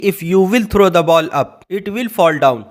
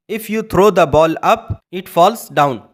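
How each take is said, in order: First: Very slow, showing the mistaken "will"; teacher's incorrect example, spoken slowly; wrong version. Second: Very slow, careful right sentence; teacher's correct example, spoken slowly; correct version. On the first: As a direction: read out the wrong form slowly as a warning. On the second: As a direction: model the correct English slowly. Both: Shown as a demonstration. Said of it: "अब यहाँ पर हम ये नहीं बोलेंगे कि".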